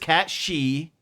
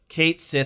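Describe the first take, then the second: First: The second word is said like 'she'. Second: The second word is said like 'sith'. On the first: This is the technically correct pronunciation. "it is technically Cat She" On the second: This is the common popular pronunciation. "There are more people that call the character Cait Sith"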